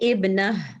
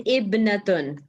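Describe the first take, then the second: First: The word ends with a soft h sound. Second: The word ends with a t sound plus -un. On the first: The speaker stops on this word. "here you will say ibnah ... when we stop, we pronounce it as ha" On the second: The speaker continues without stopping. "if you have to say it properly, you will say ... ibnatun"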